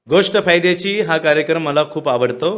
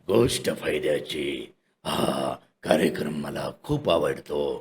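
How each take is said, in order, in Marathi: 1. आवाज हलका आहे, तोंडात येतो. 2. आवाज खूप खोल आहे, छातीतून येतो. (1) "माऊथचा वेगळा" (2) "बेस अंडर बेस"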